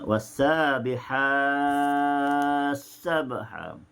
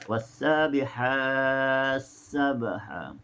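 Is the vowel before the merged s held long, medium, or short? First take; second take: long; medium. First: The vowel before the merged s is held longest. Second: The vowel before the merged s is held medium.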